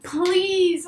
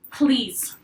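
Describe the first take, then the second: First: Unvoiced begging whisper; whispered pleading please. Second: Said in the usual way. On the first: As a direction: beg under your breath. He pleads again.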